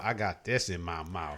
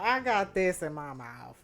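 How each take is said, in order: First: Low, soft mouth-full mimic; teasing echo of her mouthful; imitating her. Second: Talking round something in mouth; slow, mouth full of food. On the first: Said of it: "I need to sound bite that". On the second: Real, not acted.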